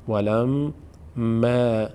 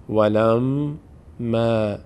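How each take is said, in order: Both takes have the same delivery.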